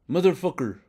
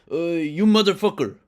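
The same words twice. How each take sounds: First: A second rough Italian-American New York curse; Italian coworker impression. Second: Put-on loose Italian-American New York accent, pitched up and loud; Italian coworker impression. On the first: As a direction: repeat the curse in the same Italian-American New York accent, high and falling. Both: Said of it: "that's not a good impression".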